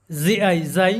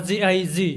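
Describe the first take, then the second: First: জাই said with the long open আই sound; G before I as J. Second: জি said with the short ই sound; G before I as short J. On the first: Teacher showing students how জিআই sounds as জাই. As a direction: spell জিআই then say it জাই, like the Bengali ai. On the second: Teacher showing students the short জি reading. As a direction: spell জিআই then clip it to জি. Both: Shown as a demonstration. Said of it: "সাধারণত জিআই যাই এবং জিআই জি হবে".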